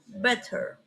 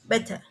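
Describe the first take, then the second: First: It is said with an American r sound. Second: It is said in British style without r. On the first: "words like better in America use r" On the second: "In British, no use the r"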